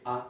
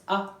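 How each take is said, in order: First: "a" said low; lower-pitched vowel. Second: "a" lifted high; higher-pitched vowel. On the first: Teacher showing one of two ways, low "a". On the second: Teacher showing the other way, high "a". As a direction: raise the pitch on "a". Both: Shown as a demonstration. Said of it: "two way of saying this".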